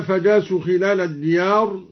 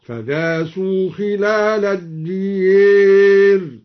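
First: Said in the usual way. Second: Very slow chant, الدير said "diyeer"; stretched recitation ending in "ad-diyeer"; imala on الديار. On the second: Shown as a demonstration. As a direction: draw it out, bending the last vowel of الدير to a long e. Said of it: "أمال الدوري الديار هكذا".

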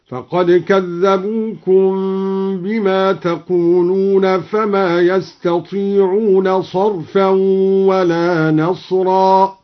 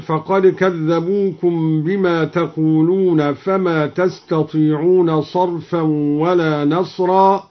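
First: Slow chant, يستطيعون sung with ya; recited with ya. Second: Said in the usual way. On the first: Shown as a demonstration. (تلاوة بياء الغيبة في يستطيعون) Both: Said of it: "قرأ الدوري بياء الغيبة هكذا".

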